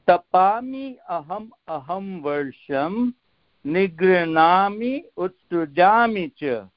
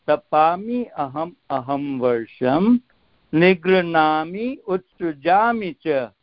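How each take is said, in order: The two takes are said the same way.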